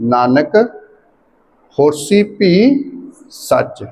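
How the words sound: There is a pause after the first word. The speaker calls it right. "Nanak ते भी इसे तरह रुकांगे जिवें आद सच ते रुके सी"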